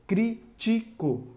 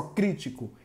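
First: "crítico" slow and higher, as crí, ti, co; split into syllables. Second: Said in the usual way. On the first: Shown as a demonstration. Teacher dividing a word for pupils, "crítico" syllable by syllable. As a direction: give each syllable of "crítico" its own beat. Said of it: "Se eu separar, vai ficar assim". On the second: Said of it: "Se eu separar".

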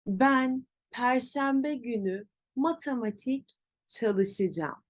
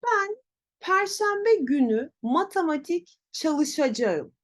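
First: Çalışacağım as cha-lı-shı-jam; spoken contraction. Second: Çalışacağım in full, cha-lı-sha-ja-ım, higher voice; written form. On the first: Teacher shows how to say it, çalışacağım as çalışıcam. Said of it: "Nasıl söyleyeceğim?". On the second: Teacher demonstrates wrong pronunciation, full çalışacağım. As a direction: pitch up, sound out çalışacağım as spelt. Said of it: "Yanlış telaffuz". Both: Shown as a demonstration.

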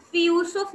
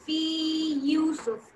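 First: "फी यूसुफ" run together with a short "फी"; wrong merged reading. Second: "फी यूसुफ" said slowly with "फी" gently stretched; lengthened vowel. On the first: Teacher shows students the wrong joined reading. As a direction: clip "फी" and fuse it into "यूसुफ". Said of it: "नहीं करके पढ़ेंगे". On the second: Teacher slowly models the correct stretched reading. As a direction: draw out the long ee of "फी", then say "यूसुफ". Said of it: "फी को हल्का सा खींच के यूसुफ पढ़ेंगे". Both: Shown as a demonstration.

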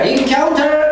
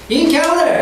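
First: "encounter" with a clear, hard T; T pronounced. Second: "encounter" with the T softened away; T dropped. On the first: Teacher showing students the other way, "encounter" with strong T. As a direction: say "encounter" as "in-COWN-ter", T fully sounded. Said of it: "T가 강하게". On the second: Teacher showing students the American way, "encounter" with weak T. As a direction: say "encounter" as "in-COW-ner", high and loose on the T. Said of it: "미국식은 R 발음이 살면서 T를 약하게". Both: Shown as a demonstration.

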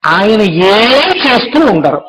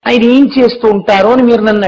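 First: Slow, drawn out, stress on చేస్తూ with a falling end; slow punchline. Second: Said in the usual way. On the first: Shown as a demonstration. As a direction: let చేస్తూ stretch long, then fall.

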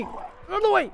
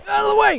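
First: Very high squeal at ordinary volume; high, urgent repeat, held back in volume; panicked squeal. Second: Very high, loud yell; high-pitched urgent holler; panicked shout. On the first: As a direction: squeal it without shouting. Repeats it while fleeing. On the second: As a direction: shout to clear a path. Shoving past zombies. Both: Real, not acted.

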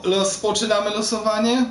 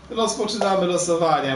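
First: Rozpoczynamy losowanie? asked with the pitch rising on losowanie; asking tune. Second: Rozpoczynamy losowanie. stated with the pitch falling and the weight on Rozpoczynamy; firm statement. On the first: Streamer asks his viewers, rising question on losowanie. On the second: Streamer answers his own question, falling statement on Rozpoczynamy. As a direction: announce it flatly, falling on Rozpoczynamy. Streamer opening the viewer giveaway. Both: Acted.

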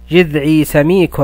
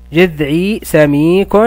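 First: Said in the usual way. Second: Each word drawn out slowly for pupils; slow model reading. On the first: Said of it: "أقرأ وألاحظ". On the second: Shown as a demonstration. Teacher modelling the phrase slowly for pupils. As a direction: stretch جذعي سميك slowly with rising end. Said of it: "نلاحظ يا أبطال".

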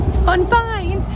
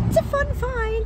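First: Excited. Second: High silly voice. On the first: Repeated catchphrase. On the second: Repeated in a put-on voice. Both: Acted.

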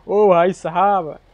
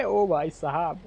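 First: Drawn-out amazed groan. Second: Said in the usual way. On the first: Real, not acted. Stunned at crushed trailer.

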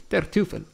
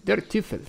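First: Angry curse. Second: Higher, startled German oath; startled curse. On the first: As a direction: hit it again as a threat. (imprecazione ripetuta, minacciosa) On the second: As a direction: blurt it out in shock, pitched up. (imprecazione sorpresa, più acuta) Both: A narrator's reading.

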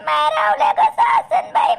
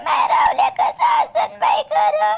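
First: Tearful wail, stretching कसा; wailing lament. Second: Repeated wail. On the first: Mother wailing to her son about her worry. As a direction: cry out the question through tears. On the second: Mother repeating her lament. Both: Acted.

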